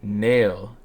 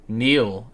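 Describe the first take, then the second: First: The vowel sounds like the one in 'mail'. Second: The vowel sounds like the one in 'feel'. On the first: The speaker calls it wrong. "not Nail" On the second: The speaker calls it right. "I think it's Neil"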